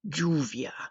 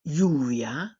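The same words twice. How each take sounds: First: The double L sounds like English J. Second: The double L sounds like English Y. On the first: "sounding like a J" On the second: "sounding like the letter Y"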